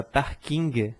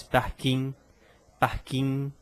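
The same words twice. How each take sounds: First: "parking" with a sounded hard g at the end; "parking" ending in an audible g plus faint vowel; old-fashioned pronunciation. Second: "parking" with a silent final g; modern pronunciation. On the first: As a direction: release the final g of "parking", like "parkingue". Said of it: "se pronunciava". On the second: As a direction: end "parking" on the nasal, no g released. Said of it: "já se fala mais". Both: Shown as a demonstration.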